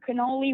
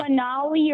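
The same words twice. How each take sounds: First: "Canoli" with an "oh" in the middle; second guess, "Canoli" said with "oh"; alternative pronunciation. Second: "Canali" with an "ah" in the middle; tentative first guess, "Canali" said with "ah"; unsure pronunciation. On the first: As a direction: try "Canoli", middle syllable as "no". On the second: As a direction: try "Canali", middle syllable as "nah". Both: Real, not acted. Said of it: "how to pronounce it".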